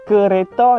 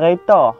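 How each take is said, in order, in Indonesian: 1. Katanya diucapkan lengkap, tiga suku kata. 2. Suku kata pertama dihilangkan, tinggal dua suku kata. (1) "kereta jadi reta" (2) "kereta jadi reta"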